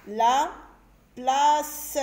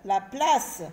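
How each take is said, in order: First: "La ... place" split by a pause, louder; syllable by syllable. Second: Said in the usual way. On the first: Shown as a demonstration. Teacher sounding out a word for children, "La / place" in separate louder pieces. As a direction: sound out La, stop, then a stretched place. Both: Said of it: "des mots de plusieurs syllabes".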